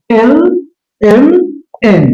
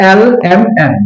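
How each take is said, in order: First: এল এম এন separately, with closer English vowels; correct L M N. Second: এল এম এন with open "a"-like vowels; wrong L M N. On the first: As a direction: space out এল, এম, এন with tighter vowels. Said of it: "তাহলে হবে". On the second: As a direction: say এল এম এন the mistaken local way, vowels wide open. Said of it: "Not এল এম এন". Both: Shown as a demonstration.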